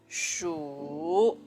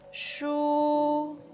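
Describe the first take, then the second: First: The pitch has the third tone contour. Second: The pitch stays high and level. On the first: "This is the third tone" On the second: "It's high and flat"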